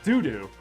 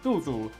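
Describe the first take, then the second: First: The name is said like the English word doo-doo. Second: The name is said with a Mandarin-style pronunciation. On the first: This is how the voice actress says it. The speaker calls it wrong. "but she says doo doo, like poop" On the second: This is the character's real name. The speaker calls it right. "there's a character named"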